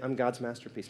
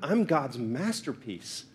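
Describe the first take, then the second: First: It is said casually and dismissively. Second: It is said earnestly and with conviction.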